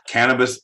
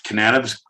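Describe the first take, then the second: First: "cannabis" said right, KAN-uh-bis, stress on the first; cannabis corrected. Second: "Cannabis" with an extra syllable, kuh-NAN-uh-bis; cannabis misspoken. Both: Shown as a demonstration. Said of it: "I always wanna say cannabis".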